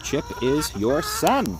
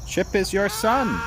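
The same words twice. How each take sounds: First: Gentle firm reminder. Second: Higher pleading reminder. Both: Real, not acted. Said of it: "repeated to the hen".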